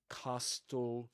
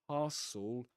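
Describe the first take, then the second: First: The t sound is pronounced in the middle. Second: The t sound is dropped from the middle. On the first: The speaker calls it wrong. "You don't say castle" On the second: The speaker calls it right. "but castle"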